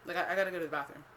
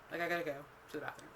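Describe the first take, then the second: First: Said in the usual way. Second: Fast, softer, tossed-off "I gotta go to the bathroom"; rushed mumble. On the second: Retold or imitated. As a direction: rattle it off quickly and quietly. Repeating the excuse.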